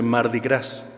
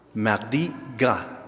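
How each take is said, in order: First: It is said the common, non-French way. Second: It is said with a French pronunciation. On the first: This is how people usually call it. The speaker calls it wrong. "Así se le conoce, pero está mal pronunciado" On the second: These are the original French words. The speaker calls it right. "dos palabras en francés"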